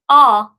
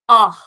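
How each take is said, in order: First: It ends on a plain vowel with no breath. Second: It ends with an audible breathy h sound. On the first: The speaker calls it wrong. "instead of saying ah" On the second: The speaker calls it right. "a little bit of extra force... a little bit of breathiness"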